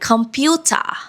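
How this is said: It is said in an Australian accent. "Australians sometimes say it more like computer"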